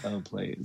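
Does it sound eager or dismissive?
dismissive. It sounds scornful and dismissive.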